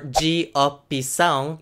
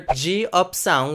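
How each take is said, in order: First: It is said as four separate syllables. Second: It is said as three distinct syllables. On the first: "which would be four syllables" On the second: "which would be distinctly three syllables"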